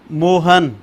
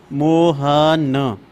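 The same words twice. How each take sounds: First: Said in the usual way. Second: मोहन stretched very slowly with a falling end, each sound held; teacher slowly sounding out मोहन, syllable by syllable; drawn-out pronunciation. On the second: Shown as a demonstration. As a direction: say मोहन slowly as a teaching demo, ending on a clear final न. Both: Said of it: "अब इनका मैं उच्चारण करूंगा".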